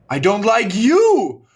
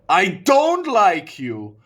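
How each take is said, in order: First: The word you is stressed. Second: The word don't is stressed. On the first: It is specifically this person who is disliked. "you can emphasize you" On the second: The dislike itself is made much clearer. "If you emphasize don't"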